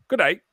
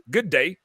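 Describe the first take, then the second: First: A higher, louder attempt at a British Good day; failed British accent. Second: Put-on British accent. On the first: Shown as a demonstration. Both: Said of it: "there's gotta be a British accent on that".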